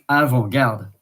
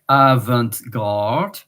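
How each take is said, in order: First: It is said with a French accent. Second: It is said with an English accent. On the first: "In French" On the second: "and in English"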